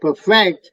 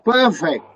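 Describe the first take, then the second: First: The stress is on the second syllable. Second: The stress is on the first syllable. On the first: The speaker calls it wrong. "You don't say perfect" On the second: The speaker calls it right. "you say perfect. Per, first syllable is pronounced"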